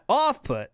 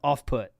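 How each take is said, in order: First: The stress falls on the word off. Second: The stress falls on the word put. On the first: The speaker calls it wrong. "not off put" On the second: The speaker calls it right. "the emphasis should be on put in off put"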